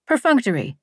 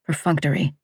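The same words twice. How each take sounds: First: Teacher's pronunciation. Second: Said in the usual way. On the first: Retold or imitated. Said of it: "Missus Abbott ... had pronounced for us". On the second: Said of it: "Missus Abbott, had pronounced".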